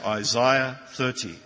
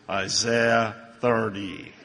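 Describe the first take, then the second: First: It is said in an Australian accent. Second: It is said in an American accent.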